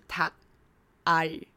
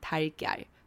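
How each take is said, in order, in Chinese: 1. 这两部分说得慢，而且分开说。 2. 这两部分说得快，而且连在一起说。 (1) "Tak 加上R" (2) "念快一点念快一点就会变成Tiger"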